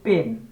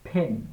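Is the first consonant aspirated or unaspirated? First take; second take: unaspirated; aspirated. First: The first consonant has no puff of air. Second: The first consonant has a puff of air. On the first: The speaker calls it wrong. "তারপর আমরা বলি পেন" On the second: The speaker calls it right. "উচ্চারণটা হবে ফেন"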